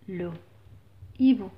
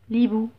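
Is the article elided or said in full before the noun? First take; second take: full; elided. First: The article is said in full before the noun. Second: The article is shortened and joined to the noun. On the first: The speaker calls it right. "Ou bien le hibou? Très bien, donc je dis le" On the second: The speaker calls it wrong. "est-ce que je dis l'hibou?"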